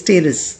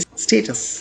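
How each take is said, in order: First: The t is softened to a quick d-like sound. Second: The t is pronounced as a crisp, clear t. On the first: "अगर आप इसे American English में कहेंगे तो आप इसे कहेंगे स्टेरस" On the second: "अगर आप ब्रिटिश इंग्लिश में कहेंगे तो आप इसे पढ़ेंगे स्टेटस"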